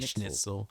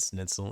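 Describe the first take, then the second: First: The word begins with an sh sound. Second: The word begins with a plain s sound. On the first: "I'm not saying the schnit" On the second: "I just say snit"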